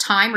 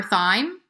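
First: "thyme" said with a plain T, like "time"; hard T pronunciation. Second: "thyme" said with a TH, as in "thigh"; soft TH pronunciation. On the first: Guest unsure of the English word for za'atar, hard-T "thyme". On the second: Guest offers the other way to say the herb, TH "thyme". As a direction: start "thyme" on an unvoiced TH sound. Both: Shown as a demonstration. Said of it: "Is it thyme or thyme?".

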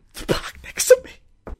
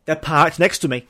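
First: Whispered mock sob; fake-cry it, breathy and broken. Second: Said in the usual way. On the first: Driver whimpering about the car parked next to theirs.

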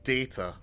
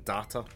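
First: Data said as day-ta, long a like in day; dah-ta. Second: Data? said as dah-ta, broad a like in father. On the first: Pulaski's version as told to the co-host: Data as day-ta. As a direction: say Data as DAY-tah, the Enterprise way. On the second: Contrasting with the co-host the old way: Data as dah-ta. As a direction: say Data as DAH-tah, quick rising question. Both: Shown as a demonstration. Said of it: "saying Data rather than".

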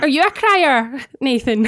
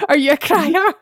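First: Said in the usual way. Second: Crier rising, laughing as she asks; amused rising question on crier; said through a laugh. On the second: Shown as a demonstration. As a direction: ask it again while cracking up. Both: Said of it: "I don't know why that sounds wrong".

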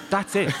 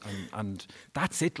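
First: "That's it" pitched much higher and louder, punched then falling; emphatic that's it. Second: Said in the usual way. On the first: Retold or imitated. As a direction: hit "That's it" hard and high like a final verdict. Dad's view retold in pub.

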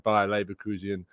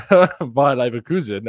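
First: Leverkusen slipped into "Lever-KOO-zee-un"; mispronounced name. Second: Leverkusen as "Lever-KOO-zen", slow and loud; amused, louder correction of Leverkusen to "Lever-KOO-zen"; corrected pronunciation. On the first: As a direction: add a stray "ee" before the end of Leverkusen. Slips on name, then corrects it. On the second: Corrects the slip with a laugh. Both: Real, not acted.

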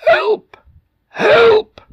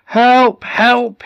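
First: Very high, cracked, strained shout; hoarse shouting. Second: High, full-voiced shouts; shouting for help. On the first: Acted. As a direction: shout with a voice almost gone. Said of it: "his voice was almost gone, hoarse from shouting". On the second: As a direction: shout for help as the sea rises. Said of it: "he shouted".

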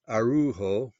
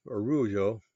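First: "Araujo" read the English way as ah-roo-HO; "Araujo" with a hard h sound, ah-roo-ho; first guess at the name. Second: "Araujo" said the French way as ah-roo-ZHO; corrected pronunciation. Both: Shown as a demonstration. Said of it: "I guess that's pronounced".

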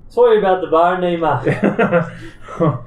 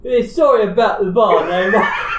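First: Put-on loud, higher Irish accent; Irish lilt, raised voice. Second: Loud, high-pitched Cockney; hammed-up Cockney, breaking into laughter; Cockney accent. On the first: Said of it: "That was [name]'s accent". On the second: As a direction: shout it like a mocking Cockney. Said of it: "[name]' accent was Cockney".

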